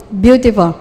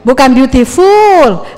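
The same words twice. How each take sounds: First: "Beautiful" diucapkan salah, lebih rendah dan lembut; salah ucap. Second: "beautiful" lambat dan jelas; ucapan benar ditekankan. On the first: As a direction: contoh keliru "Beautiful" dengan u panjang. (guru menunjukkan ucapan yang salah) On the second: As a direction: koreksi "beautiful" pelan dan tegas. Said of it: "Kalau beautiful itu cantik dan bodoh". (guru mengoreksi ucapan "beautiful") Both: Shown as a demonstration.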